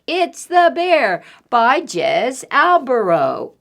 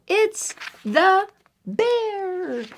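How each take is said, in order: First: Said in the usual way. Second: Title stretched out slow and high, ominous; dramatic title. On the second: Shown as a demonstration. Reader teasing the title to the children, slow and spooky. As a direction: draw the title out to build suspense.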